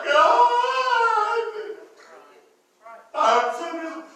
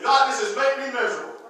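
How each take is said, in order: First: Hammed-up whining prayer; mock crying. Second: Said in the usual way. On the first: Shown as a demonstration. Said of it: "it is not time to go cry". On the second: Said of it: "This is what you do".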